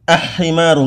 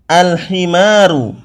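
First: The l merges into a doubled h sound. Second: The l is clearly pronounced before the h. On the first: The speaker calls it wrong. "enggak boleh" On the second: The speaker calls it right. "alnya dibaca dengan jelas"

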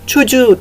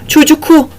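First: A soft g replaces the k sound. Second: A k sound comes before the final vowel. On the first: The speaker calls it right. "çocuğu diyorum" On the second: The speaker calls it wrong. "Çocuku demiyorum"

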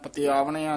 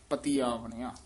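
First: The vowel after the 't' is short. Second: The vowel after the 't' is long. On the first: The speaker calls it wrong. "ਪਤਿਆਵਣਿਆ ਨਹੀਂ ਕਹਿਣਾ" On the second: The speaker calls it right. "ਤੱਤੇ ਦੀ ਬਿਹਾਰੀ ਨਾਲ ਉਚਾਰਨ ਕਰਨਾ"

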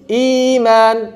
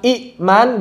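First: The first vowel is lengthened with no stop. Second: The first vowel is cut by a glottal stop. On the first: This is the form as it is recited. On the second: This is the form before the change.

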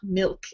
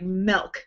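First: The vowel is a short 'i' sound. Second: The vowel is a short 'e' sound. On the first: "not milk" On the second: "I always say milk, like milk"

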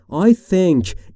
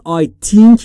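First: The th is a soft dental hiss. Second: The th is replaced by a different sound. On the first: The speaker calls it right. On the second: The speaker calls it wrong.

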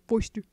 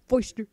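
The two takes are said the same way.

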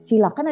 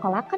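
First: The word begins with an 'si' sound. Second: The word begins with a 'ko' sound. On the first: "Dibacanya ada yang silakan" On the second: "ada yang kolakan ya"

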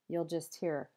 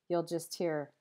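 The two takes are said the same way.

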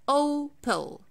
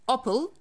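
First: The first O is said as a full, separate sound. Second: The first O is blended into the rest of the word. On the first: The speaker calls it right. "I take care of the O sound and I deal with it as if it's a separate sound" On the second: The speaker calls it wrong. "I'm not saying Opel"

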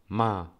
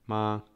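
First: The syllable sounds sharp, like a command. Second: The pitch stays level throughout. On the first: It means to scold. "czwarty ton, taki ja to nazywam rozkazujący" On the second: It means mother. "Pierwszy ton, ton taki równy"

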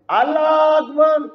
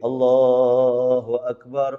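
First: It sounds harsh and angry, like shouting. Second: It sounds soft, drawn out and melodious.

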